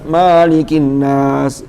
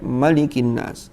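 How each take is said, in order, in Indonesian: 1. Huruf vokal pertama dari malik dibaca panjang. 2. Huruf vokal pertama dari malik dibaca pendek. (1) "Kalau ada yang baca panjang keliru" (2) "pendek itu mesti pendek"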